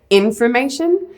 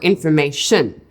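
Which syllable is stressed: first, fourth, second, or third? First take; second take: first; fourth. First: The stress is on the first syllable. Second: The stress is on the fourth syllable.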